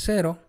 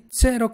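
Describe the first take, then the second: First: Said in the usual way. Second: Cero begun with ts, tsero; Italian ts sound. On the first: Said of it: "que es cero". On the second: Shown as a demonstration. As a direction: say Cero with a t before the s. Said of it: "la vas a pronunciar como T".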